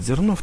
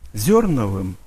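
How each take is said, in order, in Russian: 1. Ударная гласная звучит как обычное «о». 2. Ударная гласная звучит как «ё». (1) "некоторые пишут и говорят Зернов, там же эти две точечки не всегда ставятся" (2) "правильно произносится"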